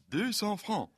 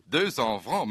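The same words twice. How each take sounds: First: Higher lady's voice for Deux cents francs; lightly voiced streetwalker quoting her price; a hint of a French lady. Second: Deux cents francs repeated as a rising question; naive, rising question; puzzled repeat. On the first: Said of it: "zei de vrouw". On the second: Retold or imitated. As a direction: echo the price without understanding it. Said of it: "zei ik".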